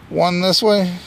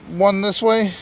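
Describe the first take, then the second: No difference in how they are said.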